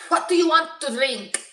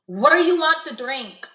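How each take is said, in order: First: Higher, hammed-up bad Spanish accent; exaggerated Spanish accent. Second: Lightly attempted Spanish accent, a little higher; half-hearted mock Spanish accent; bad Spanish accent. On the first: Joking as the bartender, overdone bad Spanish accent. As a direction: push the fake Spanish accent for a joke. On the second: Imagined bartender taking an order, horrible Spanish accent. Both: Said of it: "I have a horrible Spanish accent".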